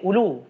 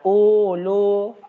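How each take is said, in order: First: The first vowel is kept short. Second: The first vowel is held long. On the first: The speaker calls it right. "Hamzah hanya dibaca pendek" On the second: The speaker calls it wrong. "Bukan ulu"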